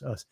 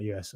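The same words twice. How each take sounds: First: "us" said as one word, like the pronoun us; right reading. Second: "U S" spelt out as letters, U then S; wrong reading. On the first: Streamer correcting a viewer's name, saying "us" as a word. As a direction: say "us" as the plain word us. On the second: Streamer correcting a viewer's name, spelling "U S" as letters. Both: Shown as a demonstration. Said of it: "not U S, us".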